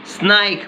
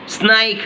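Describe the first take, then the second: No difference in how they are said.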